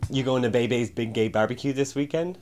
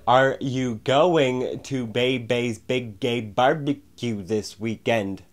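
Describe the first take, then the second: First: It is said casually at normal loudness. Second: It is said louder and more pronounced.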